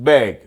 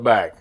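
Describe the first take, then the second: First: The vowel sounds like the vowel in 'bed'. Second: The vowel sounds like the vowel in 'cat'. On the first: This is how people from the north say it. "like B E G, like it's spelled B E G" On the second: This is how people from the south say it. "We would call it bag"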